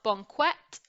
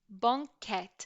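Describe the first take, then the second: First: The qu is a kw sound. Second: The qu is a plain k sound. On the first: The speaker calls it wrong. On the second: The speaker calls it right.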